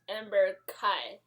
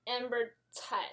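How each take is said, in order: First: The surname starts with a k sound. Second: The surname does not start with a k sound. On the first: The speaker calls it wrong. "not Amber Kai" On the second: The speaker calls it right. "I'm Amber Tai"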